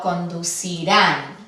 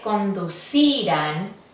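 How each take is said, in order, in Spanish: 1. El acento cae en la última sílaba. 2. El acento cae en la penúltima sílaba. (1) "para que el acento caiga en la última" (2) "La acentuación debería de caer en la penúltima"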